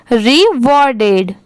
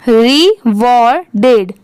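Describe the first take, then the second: First: Said in the usual way. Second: रिवॉर्डेड slowly split as ri, wor, ded; syllable by syllable. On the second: Shown as a demonstration. Teacher breaking up a word for learners, रिवॉर्डेड in slow separate syllables. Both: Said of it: "पूरा मिला देंगे तो".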